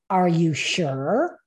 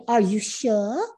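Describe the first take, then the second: First: Said in the usual way. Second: Lightly imitated English accent; soft-r English accent, questioning lift at the end. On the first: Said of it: "he said it in this". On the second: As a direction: quote him with a touch of English accent. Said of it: "like, English accent".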